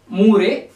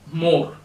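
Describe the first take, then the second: First: The name does not sound like 'more'. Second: The name sounds exactly like 'more'. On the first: The speaker calls it wrong. "you should not pronounce this uh, as Moore" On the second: The speaker calls it right. "The same pronunciation we use for more"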